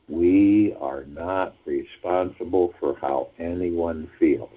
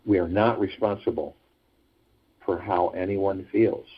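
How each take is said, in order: First: "We are not responsible" drawn out word by word; slow emphatic repetition. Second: Said in the usual way. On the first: Shown as a demonstration. Host driving the teaching home to listeners, slow emphatic repetition.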